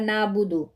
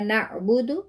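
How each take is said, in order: First: The ain is smoothed over without a catch. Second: The ain gets a clear catch. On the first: The speaker calls it wrong. "ऐसे नहीं पढ़ना" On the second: The speaker calls it right. "आइन के ऊपर हमने झटका देना है"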